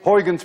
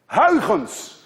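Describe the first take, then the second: First: It is said with English vowels and hard consonants. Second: It is said with Dutch vowel and throaty consonant. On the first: "I will be kind to you and call it today Huygens principle" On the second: "Let alone that you can say the combination"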